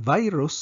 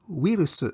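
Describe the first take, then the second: First: It is pronounced as the English word. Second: It is pronounced as the Japanese loanword. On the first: "Ang virus" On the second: "sa hinapon kay virus"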